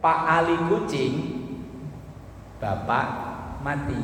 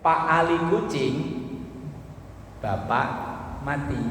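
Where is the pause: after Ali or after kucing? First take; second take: after kucing; after kucing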